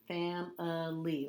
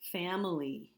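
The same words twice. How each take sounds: First: "Family" slowly in three parts, "fam-uh-lee"; sounded out. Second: Said in the usual way. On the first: Shown as a demonstration. Teacher showing what the I sounds like, "Family" slowly syllable by syllable. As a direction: separate the middle schwa in "Family". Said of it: "what the I sounds like here". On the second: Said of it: "guess what the I sounds like here".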